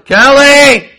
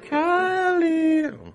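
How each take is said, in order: First: The name is called more loudly. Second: The name is called more softly.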